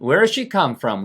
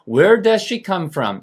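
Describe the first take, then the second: First: 'Does' shrinks to a quick 'z' sound. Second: Every word is pronounced fully and distinctly. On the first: "빨리 하면" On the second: "이게 원래 정확한 발음인데"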